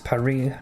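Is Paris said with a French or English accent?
French. It is said the French way, silent final s. The speaker calls it right. "is Paris"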